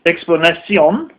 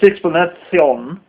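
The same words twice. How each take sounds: First: The s and c sounds are plain hissing sounds. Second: The s and c sounds are lisped like th. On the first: "it's not explanation" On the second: "it's explanation. Because the king spoke with a lisp"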